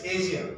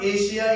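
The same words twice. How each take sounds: First: Asia with 'zh', AY-zhia; corrected pronunciation. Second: Asia with 'sh', AY-shia; wrong pronunciation shown. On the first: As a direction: demonstrate the voiced 'zh' in Asia. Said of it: "it's Asia". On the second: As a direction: demonstrate the mistaken 'sh' in Asia. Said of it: "It's not Asia". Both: Shown as a demonstration.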